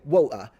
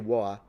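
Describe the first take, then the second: First: A glottal stop replaces the T sound. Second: The T is dropped with no catch at all. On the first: The speaker calls it right. "you say woa. So there is something there. And that's called a glottal stop" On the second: The speaker calls it wrong. "You don't say wa"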